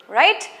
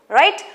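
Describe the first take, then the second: Both takes have the same delivery.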